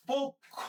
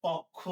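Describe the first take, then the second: First: পক্ষ with a closed o, said pokkho, voice lifted high; correct pronunciation. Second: পক্ষ with an open ɔ, said pɔkkho, lower; wrong pronunciation. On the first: Teacher models the right way to say the word, clear and raised. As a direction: say পক্ষ as pokkho, rounded o sound. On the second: Teacher shows the wrong way to say the word, low. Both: Shown as a demonstration. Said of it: "এটা পক্ষ না".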